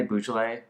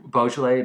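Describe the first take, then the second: First: Beaujolais starting with "boo"; variant pronunciation. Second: Beaujolais starting with "bo"; variant pronunciation. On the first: Host tests both pronunciations aloud, Beaujolais said with "boo". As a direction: say Beaujolais as "BOO-zhuh-lay". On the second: Host tests both pronunciations aloud, Beaujolais said with "bo". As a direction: say Beaujolais as "BO-zhuh-lay". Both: Shown as a demonstration. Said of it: "there's a correct pronunciation".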